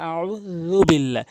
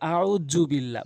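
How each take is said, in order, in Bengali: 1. মাঝের ব্যঞ্জনটি একটি নরম 'th' ধ্বনি। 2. মাঝের ব্যঞ্জনটি একটি গুনগুনে 'z' ধ্বনি। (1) "বলতে হবে" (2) "অধিকাংশ লোক এই হ- র হরফটি ভুল বলে বলে জ জ আউযু বিল্লাহ বলা যাবে না"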